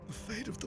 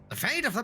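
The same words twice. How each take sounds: First: It is said in a deep, gangster-like put-on voice. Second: It is said in a thin, wizard-like put-on voice. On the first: "You want Godfather?" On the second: "not a fucking motherfucking wizard voice"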